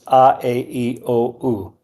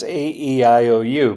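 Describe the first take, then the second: First: The vowels are said with Spanish vowel sounds. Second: The vowels are said with English letter sounds. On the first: "but in Spanish, it's" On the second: "For us, it's"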